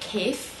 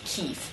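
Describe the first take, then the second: First: The vowel sounds like an 'a' sound. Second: The vowel sounds like an 'ee' sound. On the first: This is the standard form of the word. "in modern standard you pronounce it more like kef with an A sound there" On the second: This is the regional colloquial form of the word. "you'll usually hear something more similar to kif"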